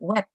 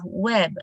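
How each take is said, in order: First: It is said in a Malaysian English accent. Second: It is said in a general English accent. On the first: "in Malaysia, it is common they pronounce it web" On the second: "the pronunciation of web"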